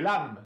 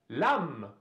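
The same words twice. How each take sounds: First: The vowel is short. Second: The vowel is held slightly longer. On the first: The speaker calls it wrong. "а не" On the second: The speaker calls it right. "Удлиняет чуть-чуть произношение буквы"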